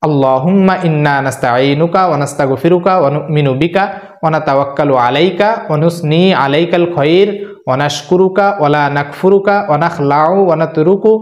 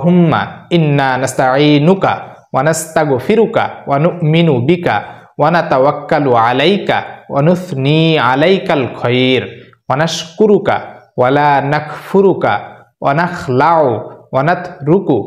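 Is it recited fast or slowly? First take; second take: fast; slowly. First: It is recited at a faster pace. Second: It is recited at a slower pace.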